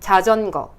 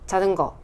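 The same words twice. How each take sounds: First: The j sounds are forceful and crisply articulated. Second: The j sounds are soft and weakly articulated. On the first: The speaker calls it right. "힘을 더 줘서 배심으로" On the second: The speaker calls it wrong. "힘이 부족해서 이게 안 닿는 경우가 있어요"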